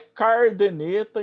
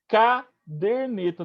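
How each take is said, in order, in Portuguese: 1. O som de r aparece só na primeira sílaba. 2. O som de r aparece só na segunda sílaba. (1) "não é cardeneta" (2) "caderneta, de caderno"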